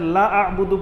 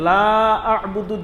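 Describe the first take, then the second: First: The vowel in 'la' is cut short. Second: The vowel in 'la' is drawn out long. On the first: It says the speaker also worships the same. The speaker calls it wrong. "লাম তাকিদ হৈ যাব" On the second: It says the speaker does not worship. The speaker calls it right. "দীঘল কৰিব লাগে"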